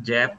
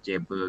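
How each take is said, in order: First: The word ends on the b sound, no vowel. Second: The word ends with an extra e vowel. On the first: The speaker calls it right. "nggak usah ada lagi e ya. Jadi langsung aja" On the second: The speaker calls it wrong. "bukan jebe gitu ya"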